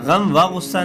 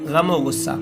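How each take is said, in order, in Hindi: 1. शब्दों के बीच एक अलग 'va' बोला जाता है। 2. 'o' पहले शब्द से जुड़कर बोला जाता है। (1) "गम व गुस्सा नहीं" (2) "मिला करके इस तरह इन अल्फाज को पढ़ा जाता है"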